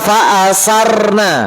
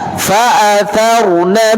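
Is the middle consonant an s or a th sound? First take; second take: s; th. First: The middle consonant is an s sound. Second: The middle consonant is a th sound. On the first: The speaker calls it wrong. "Jangan membaca fa'asarna" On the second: The speaker calls it right. "Jadi fa'atha fa'atharna"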